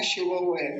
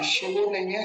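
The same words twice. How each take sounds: First: शिवौ ending in au; correct vowel. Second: शिवो ending in a plain o; wrong vowel. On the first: Teacher showing the correct au ending. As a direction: end शिवौ on au, not o. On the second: Teacher showing the wrong vowel ending. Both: Shown as a demonstration. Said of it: "शिवो नहीं कहेंगे कभी".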